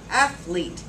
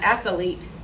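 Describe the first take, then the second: First: The word is said with two syllables. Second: The word is said with three syllables. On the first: The speaker calls it right. "Two syllables" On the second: The speaker calls it wrong. "Not athlete"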